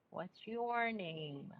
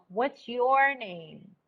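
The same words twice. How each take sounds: First: "your" stressed, slow and much softer; slow soft repeat. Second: "your" stressed, slow fall to "name"; slow falling question. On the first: Teacher repeats the question slowly and softly. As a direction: echo it slowly and quietly. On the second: Teacher demonstrating falling intonation, slow. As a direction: ask slowly, let it fall. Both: Shown as a demonstration. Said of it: "the intonation in language".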